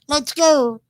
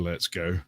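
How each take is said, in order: First: It is said in a high, cute anime-girl voice. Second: It is said in the speaker's normal voice.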